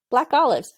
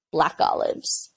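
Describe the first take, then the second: First: Said in the usual way. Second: Breathy whispered craving; dreamy whisper. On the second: Retold or imitated. Telling the crew chief what she craves, whispered. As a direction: whisper it like a secret longing. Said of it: "You know what I really want?".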